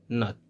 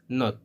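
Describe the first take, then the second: First: "not" with an open American ah; American pronunciation of not. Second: "not" with a rounded British o; British pronunciation of not. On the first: Teacher shows learners American "not", open American vowel. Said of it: "In American English, it's pronounced". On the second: Teacher shows learners British "not", rounded British vowel. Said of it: "not in British English". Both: Shown as a demonstration.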